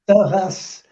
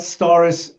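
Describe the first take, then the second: First: The name is said with a French rolled r. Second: The name is said with an English pronunciation. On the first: "French people say Storas with the r, r, r" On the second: "a lot of English people say Stories"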